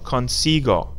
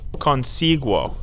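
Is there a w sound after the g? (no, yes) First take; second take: no; yes. First: The g is hard with no w sound. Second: The g is followed by a w sound. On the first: The speaker calls it right. "Hard G sound" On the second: The speaker calls it wrong. "we don't want these U's in them"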